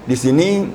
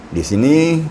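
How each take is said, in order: Both takes have the same delivery.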